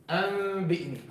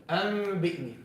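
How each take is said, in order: The two takes are said the same way.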